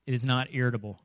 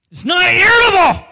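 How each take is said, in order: First: Said in the usual way. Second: Much higher, much louder furious yell; irritable shout. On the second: Shown as a demonstration. Preacher shows the congregation how irritable sounds, furious shout. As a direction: blow up like an irritable man snapping.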